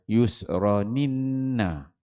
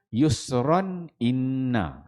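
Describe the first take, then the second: First: The glottal stop is dropped and the words merge. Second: The glottal stop is kept before the second word. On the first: "Buang huruf huruf hamzah" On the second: "dia teruskan"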